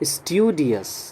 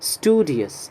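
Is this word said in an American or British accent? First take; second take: British; American. First: It is said with a British accent. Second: It is said with an American accent. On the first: "British pronunciation है इसका" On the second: "American pronunciation है इसका"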